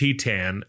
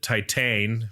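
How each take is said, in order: First: The title is said with a French pronunciation. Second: The title is said as an English word. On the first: The speaker calls it right. "we just figured out it's pronounced Titan" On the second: The speaker calls it wrong. "I pronounced it Titan because that's what it looks like"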